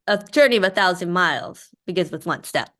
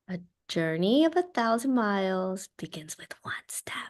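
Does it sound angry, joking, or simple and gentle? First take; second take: joking; simple and gentle. First: It sounds like a joke's punchline. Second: It sounds simple and gentle, as if to a toddler.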